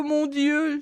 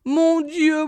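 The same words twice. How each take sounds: First: The second mon Dieu much softer, dying away; fading moan. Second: Moaning lament. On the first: Margot moaning to God, the repeat fading quiet. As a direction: let mon Dieu sink to a quiet wail. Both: A narrator's reading. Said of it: "gémissait-elle".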